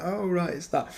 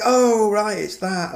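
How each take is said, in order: First: Quieter recognition. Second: Higher, excited "oh, right" as a fan; excited recognition. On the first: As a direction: imitate a fan noting it again, softly. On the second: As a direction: imitate a fan spotting a reference, excited. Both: Retold or imitated. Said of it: "you'll be like".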